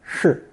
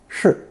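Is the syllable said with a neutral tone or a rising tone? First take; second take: neutral; neutral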